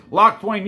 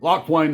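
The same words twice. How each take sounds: First: Loud, high southern yell of Locthwain; shouting southern accent. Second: Drawn-out southern Locthwain; southern accent. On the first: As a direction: bellow Locthwain like an angry Southern barkeep. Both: Pretend. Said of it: "I just like to say Locthwain in a southern accent".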